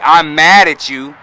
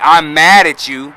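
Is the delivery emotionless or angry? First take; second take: angry; angry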